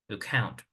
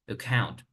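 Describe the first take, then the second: Both takes have the same delivery.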